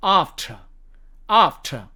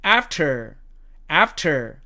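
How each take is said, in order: First: British "after", long ah and silent r; British demo of "after", r dropped; British accent. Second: American "after", front a and sounded r; American demo of "after", r kept; American accent. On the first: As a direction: say "ahf-tuh" for "after", British style. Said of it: "영국식 발음으로는". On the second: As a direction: say "after" as American "aff-ter". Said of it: "미국식 발음으로는". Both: Shown as a demonstration.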